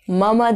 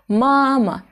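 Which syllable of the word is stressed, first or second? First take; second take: second; first. First: The first syllable is not stressed and lengthened. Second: The first syllable is stressed and lengthened. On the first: The speaker calls it wrong. "mama değil" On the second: The speaker calls it right. "vurgulu sesli harfler diğer hecedeki harflere göre bir kat daha uzun ve yüksek okunur"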